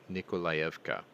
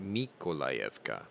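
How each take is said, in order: First: The name begins with an N sound. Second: The name begins with an M sound.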